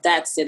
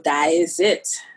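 First: It is said in an American accent. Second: It is said in a Trinidadian accent. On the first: "Like the vernacular slang that we would use here, you know, in America" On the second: "but in Trinidad, you say, whoa, Diazit"

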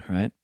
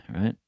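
The two takes are said the same way.

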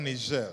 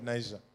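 First: The name is pronounced the French way. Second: The name is pronounced the English way.

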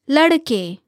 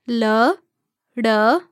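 First: The word is said smoothly at normal speed. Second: The word is said slowly, syllable by syllable. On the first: "give you the word again at natural native speed" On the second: "break down syllable by syllable"

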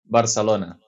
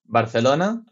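First: It is said with a local Barcelona pronunciation. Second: It is said with a Spanish pronunciation.

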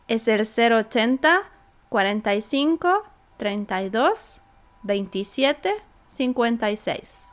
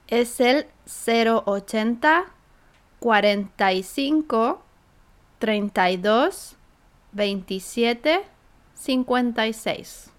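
First: The number is read at normal conversational speed. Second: The number is read at a slower speed.

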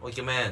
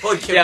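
First: It is said in a plain, everyday tone. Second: It is said in a teasing, joking tone.

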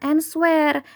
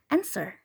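First: A w sound is pronounced in the middle. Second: No w sound is pronounced in the middle. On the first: The speaker calls it wrong. "Bacanya itu bukan answer ataupun answer" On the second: The speaker calls it right. "tapi answer"

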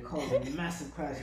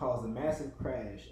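First: It is said in a put-on French accent. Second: It is said in the speaker's ordinary accent.

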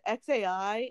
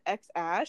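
First: The name ends with an 'eye' sound. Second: The name ends with an 'ash' sound. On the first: "She pronounces it X-A-I" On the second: "he pronounces it X-Ash"

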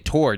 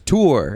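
First: The vowel is short, like in 'more'. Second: The vowel is longer, like in 'poor'. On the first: The speaker calls it wrong. "Most people were saying we say tour, T O R E" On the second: The speaker calls it right. "it says T O O R, which is tour. It's like a longer sound"

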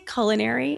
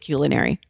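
First: The first syllable sounds like "cull". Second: The first syllable sounds like "cue". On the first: The speaker calls it wrong. "You can still say culinary" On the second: The speaker calls it right. "the correct, true way is culinary"

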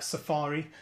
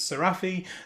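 First: The name is said like the word safari. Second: The name is said as Serafi, unlike safari. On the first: The speaker calls it wrong. "I suppose it does look a bit like Safari, but of course it's not" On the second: The speaker calls it right. "it's Serafi"

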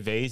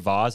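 First: Vase is said in the softer, weaker-sounding way. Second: Vase is said in the assured, confident-sounding way. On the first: The speaker sounds unsure. "it sounds like a weak way of saying it" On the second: The speaker knows exactly what they mean. "it means, I know exactly what I'm talking about"

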